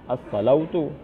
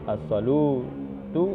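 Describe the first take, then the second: First: The vowel after L is an 'au' sound. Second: The vowel after L is an 'u' sound. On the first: The waw letter is wrongly read as a diphthong. "dibaca as-salautu" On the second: The waw letter is wrongly read as a vowel. "maka mungkin orang akan membaca as-salu, as-salutu"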